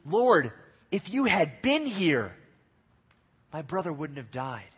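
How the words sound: It sounds disappointed and angry.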